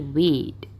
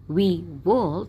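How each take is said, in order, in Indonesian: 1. Kedua kata disingkat jadi satu suku kata. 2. Kedua kata diucapkan penuh.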